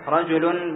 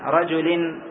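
First: The word ends with a u vowel. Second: The word ends with an i vowel. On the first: The word starts a new clause as subject or predicate. "بالضم على الابتداء أو خبر المبتدأ المحذوف" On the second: The word is a substitute for the preceding noun. "بالكسر على البدلية"

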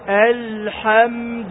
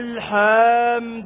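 First: The vowels are kept at normal length. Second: The vowels are stretched with extra lengthening. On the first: The speaker calls it right. "بدون تكلف الحمد لله هكذا بدون أن تزيد" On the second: The speaker calls it wrong. "الآن أنا زدت حروف مد، ما يجوز لهذا"

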